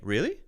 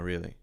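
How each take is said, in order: First: It sounds lively and interested. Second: It sounds flat and uninterested. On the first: The listener wants to hear more. "I'm interested in what you're saying" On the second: The listener is not really engaged. "telegraphing that you are not interested"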